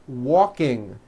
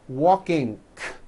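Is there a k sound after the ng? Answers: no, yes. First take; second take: no; yes. First: The word ends cleanly on the ng sound. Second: The word ends with an added k release.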